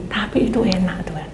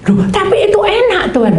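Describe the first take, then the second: First: Said in the usual way. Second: Put-on high, loud childish whine; whiny protest. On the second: Servant whines to God that rice is tasty, high whine.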